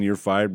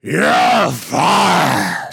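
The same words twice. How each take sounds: First: Said in the usual way. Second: Drawn-out, hammed-up shout; Vince McMahon. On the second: Promoter threatening his wrestler, huge mock firing shout. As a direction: bellow it like a wrestling boss. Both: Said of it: "That is such a pitch perfect".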